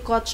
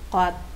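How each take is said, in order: First: The word ends with a ch sound. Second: The word ends with a t sound. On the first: The speaker calls it wrong. "hindi coach ang basa mo niyan" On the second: The speaker calls it right. "Pag nasa final naman si C H, tutunog siya T"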